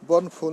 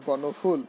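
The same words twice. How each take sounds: First: বনফুল as bon-phul, no vowel after n; wrong pronunciation. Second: বনফুল as bono-phul, linking o sounded; correct pronunciation. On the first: Teacher showing students what to avoid, wrong pronunciation. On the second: Teacher correcting the compound for students, correct pronunciation. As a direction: say বনফুল with an o after n. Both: Shown as a demonstration. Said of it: "নয়".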